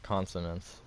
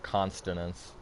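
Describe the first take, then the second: First: The word has no extra T sound. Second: The word has an extra T sound. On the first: The speaker calls it right. "There's no T. It's consonants" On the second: The speaker calls it wrong. "not consonants"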